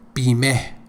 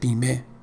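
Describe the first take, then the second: First: The final h sound is pronounced strongly. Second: The final h sound is pronounced weakly. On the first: The speaker calls it wrong. "I didn't say Bimeh" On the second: The speaker calls it right. "I said Bimeh"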